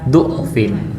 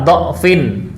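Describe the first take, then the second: First: The first vowel is a rounded 'u' sound. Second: The first vowel is an open 'a' sound. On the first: "boleh du. ... boleh dhammah" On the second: "boleh dibaca dha, ... Boleh fathah"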